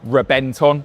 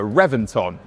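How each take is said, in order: First: The name is said in a native Spanish way. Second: The name is said in a plain English way.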